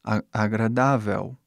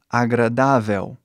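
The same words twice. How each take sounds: First: Agradável ending in a U sound, Brazilian way. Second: Agradável ending on a full L, slow; clear L agradável. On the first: Teacher showing the usual Brazilian agradável. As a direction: let the final L of agradável turn to U. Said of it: "Você faz um som de U". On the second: Teacher showing the wrong final L in agradável. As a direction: land agradável on a real L. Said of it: "Você não fala agradável". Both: Shown as a demonstration.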